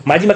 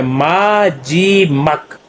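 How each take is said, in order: First: Said in the usual way. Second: माजीमक drawn out slowly as maa, jee, mak; syllable by syllable. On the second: Shown as a demonstration. Teacher sounds out a new Korean word, syllable by syllable. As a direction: stretch each syllable of माजीमक apart.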